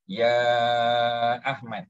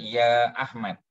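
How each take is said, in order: First: The vowel in 'ya' is drawn out very long. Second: The vowel in 'ya' is lengthened only slightly. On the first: This is how it is recited under tajwid rules. "dia kena lima harakat" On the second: This is how it is said in ordinary spoken Arabic. "mad dua harakat"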